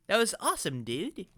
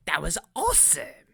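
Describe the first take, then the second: First: Put-on toned-down kid monster character. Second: Wrong character voice. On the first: Kid monster admiring what he saw, in a toned-down character voice. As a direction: voice a monster kid without the cartoon squeal. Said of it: "need to have a different accent for this character". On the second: Acted. Kid monster cheering what he saw, in a swooping cartoon voice. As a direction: slip into a swooping, theatrical character voice. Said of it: "stop using Paris accent".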